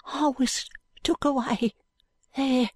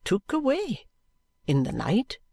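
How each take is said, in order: First: Hushed high urchin, slowly confessing. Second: AWAY pitched up high as a startled query; questioning echo. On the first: Jo secretly telling Allan of his removal, hushed high voice. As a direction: confide it in a small, slow, high voice. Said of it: "says in a low voice". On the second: Allan querying what Jo said, "away" lifted questioningly. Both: A narrator's reading.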